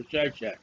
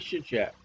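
First: First syllable of "Shishak" rhymes with "eye"; long i in "Shishak"; alternate pronunciation. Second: "Shishak" opening like "shish"; first syllable of "Shishak" rhymes with "fish"; alternate pronunciation. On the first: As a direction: say "Shishak" as SHY-shack. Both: Shown as a demonstration. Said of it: "however you want to say it".

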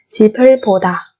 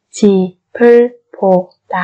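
First: Said in the usual way. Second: 집을 보다 in four separate syllables. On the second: Shown as a demonstration. Slow syllable-by-syllable model. (đọc 집을 보다 chậm từng âm tiết)

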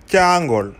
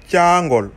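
The two takes are said the same way.

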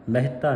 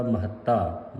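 First: ਮਹਿਤਾ as meh-ta, single t; wrong pronunciation. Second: ਮਹੱਤਾ as ma-HAT-ta, doubled t; correct pronunciation. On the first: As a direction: squash ਮਹਿਤਾ into two syllables. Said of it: "ਨਹੀਂ ਕਰਨਾ ਇਹਨੂੰ". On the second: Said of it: "ਅਧਿਕ ਲਾ ਕੇ". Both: Shown as a demonstration.

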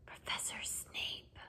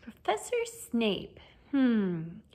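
First: Slow, very soft whisper; barely a whisper. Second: Thoughtful. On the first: Frightened pupil naming what scares him most, whispered. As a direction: whisper it almost without sound. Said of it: "barely more than a whisper". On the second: Lupin pondering his pupil's greatest fear, thoughtful. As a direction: mull the name over slowly. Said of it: "looked thoughtful". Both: A narrator's reading.

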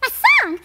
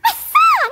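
First: Said in the usual way. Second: "My song!" again, much higher and louder, bursting with joy; the idea suddenly lands and she lights up; joyful cry. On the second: Acted. Joyful realisation repeated, louder.

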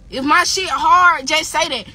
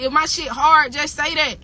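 First: "If my shit hard" drawn out slowly and louder, leaning on "hard"; slow it down and punch "hard"; slow emphatic repeat. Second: Said in the usual way. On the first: Shown as a demonstration. Daring critics to admit her song is good, slow and loud. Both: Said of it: "Somebody screen record me this shit".

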